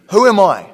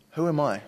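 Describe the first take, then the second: First: Loud, high-pitched protest as Moses; incredulous outburst. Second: Subdued self-doubt. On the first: Moses answering God's call, incredulous outburst. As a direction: burst out with it, falling at the end. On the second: Moses doubting himself before God, subdued. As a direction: let it out quietly, as if to oneself. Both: Acted.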